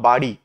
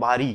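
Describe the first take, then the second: First: "বাড়ি" with a retroflex flap, as "baṛi"; correct pronunciation. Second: "বাড়ি" with a plain R, as "bari"; mispronounced word. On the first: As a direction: say "বাড়ি" correctly, tongue flapping on the ṛ. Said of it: "বাড়ি না বলে কি বলবো?". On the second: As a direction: say "বাড়ি" wrongly as "bari", no retroflex flap. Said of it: "বাড়ি না বলে আমরা কি বলি?". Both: Shown as a demonstration.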